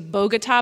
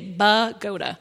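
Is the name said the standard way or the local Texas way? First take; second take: standard; local Texas. First: The name is said the standard way. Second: The name is said the local Texas way. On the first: The speaker calls it right. "It's supposed to be Bogota" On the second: The speaker calls it wrong. "but we say Bogota"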